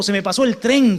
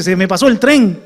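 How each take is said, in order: First: Said in the usual way. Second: Louder, heavy "Se me pasó el tren", with "tren" falling; hammed-up lament over "Se me pasó el tren"; exaggerated mock lament. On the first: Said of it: "y dice". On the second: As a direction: belt out the cliché as a mock complaint. Mocking the well-known phrase.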